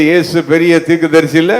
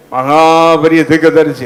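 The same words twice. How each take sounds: First: Said in the usual way. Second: மகா drawn out long and emphatic; stress on மகா. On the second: Real, not acted. Preacher correcting "great" to "supremely great", மகா stretched emphatically. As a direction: stretch the last vowel of மகா for grandeur.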